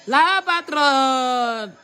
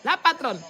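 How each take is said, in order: First: Very slow, stretched-out "La patronne"; drawn-out announcement. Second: Said in the usual way. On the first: Acted. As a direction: drag "La patronne" out like a grand entrance. Repeated announcing the boss arriving. (annonce très lente et étirée)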